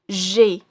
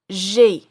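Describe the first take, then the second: The two takes are said the same way.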